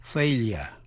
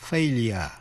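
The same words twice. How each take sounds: The two takes are said the same way.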